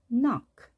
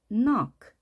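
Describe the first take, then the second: Both takes have the same delivery.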